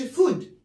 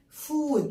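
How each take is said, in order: First: The vowel is short and clipped. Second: The vowel is drawn out long. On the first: The speaker calls it wrong. "ما بقولش فود" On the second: The speaker calls it right. "لازم اطول فيها كده"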